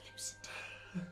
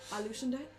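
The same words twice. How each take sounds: First: It is said quietly. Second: It is said at normal loudness.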